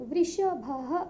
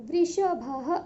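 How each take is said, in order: The two takes are said the same way.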